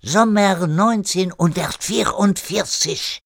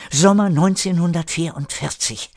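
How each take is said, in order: First: Put-on high, slow French-accented German. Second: Said in the usual way. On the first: René giving Erik his goal, emphatic French accent. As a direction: intone the year slowly with a French accent.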